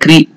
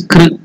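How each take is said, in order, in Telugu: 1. k తర్వాత i అచ్చు ఉంటుంది. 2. k తర్వాత syllabic r ఉంటుంది. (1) "not Krishna or Krushna" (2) "It is Kr in between"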